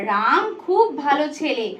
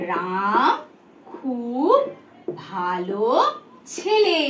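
First: Said in the usual way. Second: Word by word, long pauses between; dictation pace. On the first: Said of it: "কি লিখলাম". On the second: Shown as a demonstration. Teacher writes the sentence for pupils, word by word. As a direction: say each word alone, as if writing it. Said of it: "ধরো আমি একটা বাক্য লিখছি".

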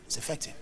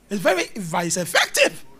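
First: Much softer, lower aside; quiet, low afterthought; hushed repeat. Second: EFFECTIVE punched out, rising; forceful, rising insistence; emphatic assertion. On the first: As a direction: drop it to a murmur. Soft repeat of the point. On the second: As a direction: drive the last word home. Punches the point, then repeats softly. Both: Real, not acted.

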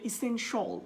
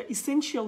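First: এসেনশিয়াল said as "i-sen-shol", the ending shortened to "shol"; এসেনশিয়াল with a short "shol" ending; correct pronunciation. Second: এসেনশিয়াল said as "e-sen-shi-al" with every syllable sounded; the common wrong "shi-al" ending on এসেনশিয়াল; wrong pronunciation. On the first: Teacher gives students the right form, clear falling tune. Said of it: "এটা হবে এসেনশিয়াল". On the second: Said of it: "এটা এসেনশিয়াল হবে না". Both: Shown as a demonstration.

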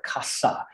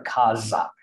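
First: "casa" with a soft s in the middle; Spanish pronunciation. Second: "casa" with a voiced z in the middle; Portuguese pronunciation. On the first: Contrasting with Portuguese for a listener, "casa" with an s sound. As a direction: say "casa" as KAH-sah. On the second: Showing how the word sounds in Portuguese, "casa" with a z sound. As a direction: say "casa" as KAH-za. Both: Shown as a demonstration. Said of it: "slightly different intonation in the vowel sounds".

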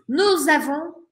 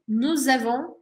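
First: "Nous avons" with the s linked as a z; Spanish: "Nous avons" con liaison, nuz avons; liaison shown. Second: "nous avons" linked, nuz-avons; Spanish: "nous avons" ligado con z; liaison again. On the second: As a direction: join the two words with a z sound. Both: Shown as a demonstration. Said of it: "hago la liaison otra vez acá".

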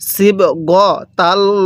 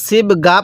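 First: "সিবগতাল্লাহ" slowly chanted in full, not cut to "সিবগা"; correct recited form. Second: Said in the usual way. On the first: Shown as a demonstration. Teacher corrects students, "সিবগতাল্লাহ" chanted slowly in full. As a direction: stretch "সিবগতাল্লাহ" out with the full ending. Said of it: "সিবগা পড়া যাবে না". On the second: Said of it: "এটা সিবগা পড়া যাবে না".

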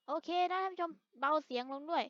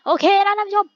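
First: Much softer, turned right down; softly asking viewers to turn it down; quiet. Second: Loud and higher, calling the viewers; loud demo shout to the viewers. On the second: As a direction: belt it out to show how loud it gets. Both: Shown as a demonstration. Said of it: "ลดเสียงให้ลงเบากว่านี้".

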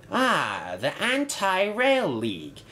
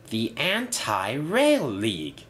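First: High-pitched, intrigued discovery; curious. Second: Slow, savoured name; slow repeat. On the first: Inspector reads a banner on Bulgy, curious. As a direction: read it out with lifted, curious interest. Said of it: "he asked curiously". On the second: Inspector fascinated by the bus's idea, slowly repeating. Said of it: "he repeated". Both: A narrator's reading.

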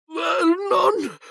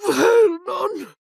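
First: Very high, panicked call; piercing cry of terror; horrified shriek. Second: Very high call breaking into a cry; panicked, tearful wail; sobbing shriek. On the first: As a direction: shriek for your husband. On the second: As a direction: wail his name near tears. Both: A narrator's reading. Wife reads the letter, horrified.

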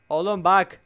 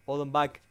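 First: Louder, higher urgent call; startled call. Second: Said in the usual way. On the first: Real, not acted. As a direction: call out in alarm. Startled player repeats louder. (ürkmüş, yüksek sesle)

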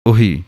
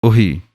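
First: ਉਹੀ said quick and light, like the first reading; short light uhi. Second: ਉਹੀ said with the h between o and i clearly sounded; full ohi with a clear h. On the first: Teacher to students, contrasting ਉਹੀ said short and light. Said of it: "ਇਹ ਹੈ". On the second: Teacher to students, modelling ਉਹੀ with its middle sound. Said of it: "ਉਹ ਬੋਲਣਾ ਹੈ". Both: Shown as a demonstration.

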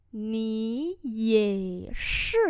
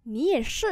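First: Very slow, tone by tone; slow learner-friendly repeat; slow model pronunciation. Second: Said in the usual way. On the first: Shown as a demonstration. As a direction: draw out each syllable. Teacher repeats phrase slowly.

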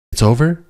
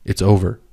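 First: High, loud defiant yell. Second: Firm command. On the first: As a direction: throw his words back at him in a shout. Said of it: "She yelled at him". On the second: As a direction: lay it down flatly as final. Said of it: "Put it down". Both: Acted.

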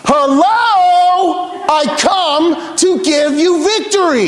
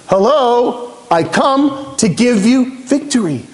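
First: High, drawn-out proclamation; God hammering the point home, pitched right up; emphatic calling out. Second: Slow, deliberate proclamation; God making a point, raised but controlled; emphatic. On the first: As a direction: call it out slowly as if to wake them up. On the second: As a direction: spell it out emphatically, word by word. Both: Acted. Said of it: "It's almost like God is emphasizing".

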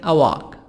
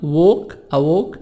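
First: American "walk" with open a, wak; American vowel in "walk". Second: British "walk" with rounded o; British vowel in "walk". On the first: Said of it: "الأمريكان". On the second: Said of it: "نطق البريطاني". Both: Shown as a demonstration.

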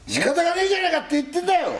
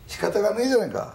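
First: Very high, fast, overdone Tokyo dialect; hammed-up old Tokyo retort; forced Edokko accent. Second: Higher-pitched Edokko retort; Tokyo Edokko accent. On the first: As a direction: push the Edokko speech until it sounds fake. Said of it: "でもちょっとわざとらしくなってるな". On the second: Acted. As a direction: answer in rough Tokyo dialect. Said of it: "チャキチャキの江戸っ子だと思ってんだよ".

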